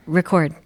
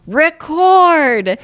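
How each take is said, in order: First: Said in the usual way. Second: Record said higher and louder, commanding. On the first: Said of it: "It's not loud enough". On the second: Retold or imitated. Kid yelling at the VCR after brother says louder, loud command. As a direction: bark Record at the machine. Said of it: "It's not loud enough. Try again".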